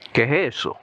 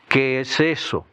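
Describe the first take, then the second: First: The s in "es" is dropped. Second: The s in "es" is pronounced. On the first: "drop the S's" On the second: "instead of saying"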